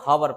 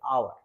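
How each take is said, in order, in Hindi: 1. यह शब्द h की आवाज़ से शुरू होता है। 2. यह शब्द स्वर की आवाज़ से शुरू होता है। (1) "जनरली क्या करते हैं बच्चे, हावर पढ़ देते हैं" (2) "लेकिन एच यहाँ पे साइलेंट होता है"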